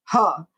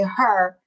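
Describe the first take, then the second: First: Imitated Illinois "huh" for her; Illinois-accented "huh", R dropped. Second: Said in the usual way. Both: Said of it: "And then if they say".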